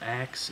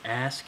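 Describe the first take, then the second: First: The s sound comes after the k. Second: The s sound comes before the k. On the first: "instead of ax" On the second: "I pronounce it ask"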